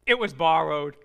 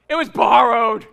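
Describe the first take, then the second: First: Lower, weighted line of dismay; dismayed realization. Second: Dramatic reveal. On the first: Prophet realizes the lost axe head was borrowed, dismayed. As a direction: let the bad news sink in. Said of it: "that horrible next sentence". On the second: Pastor reveals the worst part, loud and dramatic. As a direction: punch it out much louder, like bad news. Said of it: "here's the worst part". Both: Acted.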